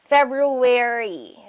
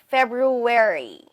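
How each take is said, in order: Both takes have the same delivery.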